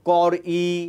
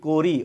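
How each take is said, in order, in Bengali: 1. শেষ স্বরধ্বনিটি পুরোপুরি আলাদা ধ্বনি হিসেবে উচ্চারিত হয়। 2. শেষ স্বরধ্বনিটি সংক্ষেপে উচ্চারিত হয় এবং মিশে যায়। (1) "আপনি কি বলেন কর ই" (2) "আমি কি বলি করি"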